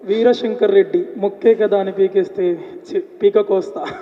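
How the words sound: It is delivered dramatically, like a film dialogue.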